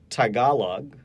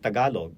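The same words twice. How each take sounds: First: The first T has a strong puff of air. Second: The first T has a very slight puff of air. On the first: This is how North American speakers say it. The speaker calls it wrong. "a Tagalog speaker will not say it like that" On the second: This is how Tagalog speakers say it. The speaker calls it right. "There's a f- very slight aspiration of the T"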